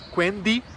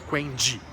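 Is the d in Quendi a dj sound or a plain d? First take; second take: plain d; dj sound. First: The d is a plain, pure d sound. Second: The d is softened toward a dj sound. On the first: The speaker calls it right. "aquele D com a pronúncia pura" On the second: The speaker calls it wrong. "e não Quendi"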